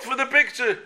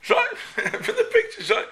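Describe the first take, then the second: First: Said in the usual way. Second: High laughing punchline. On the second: Retold or imitated.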